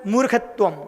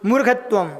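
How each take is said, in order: The two takes are said the same way.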